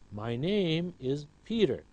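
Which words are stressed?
name, Peter. Name and Peter are stressed more than others. The speaker calls it right. "the words name and Peter are clearer than my and is"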